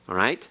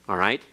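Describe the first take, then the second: The two takes are said the same way.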